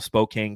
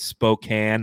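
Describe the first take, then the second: First: The ending rhymes with cocaine. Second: The ending does not rhyme with cocaine. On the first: The speaker calls it wrong. "Spokane, cocaine, Spokane. No" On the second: The speaker calls it right. "it's Spokane, not Spokane. Get it right"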